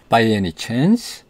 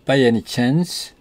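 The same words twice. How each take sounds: First: "By any chance?" with the pitch rising on "chance"; rising question tune. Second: "by any chance" rising at the end; rising intonation. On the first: Teacher showing how the question ends, rising on "chance". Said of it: "끝을 이렇게 올리는 겁니다". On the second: Teacher modelling the yes-no question, rising on "chance". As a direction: let "chance" rise like a question. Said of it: "notice the rising intonation". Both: Shown as a demonstration.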